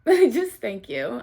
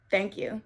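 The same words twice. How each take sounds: First: Slow, louder thanks through a laugh; laughing, emphatic thanks. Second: Said in the usual way. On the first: Real, not acted. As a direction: laugh and really lean on the thanks.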